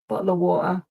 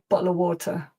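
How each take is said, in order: First: The t in water becomes a glottal stop. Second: The t in water is fully pronounced. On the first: "Bottle of water in London" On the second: "Me, ... I do actually pronounce the t in water"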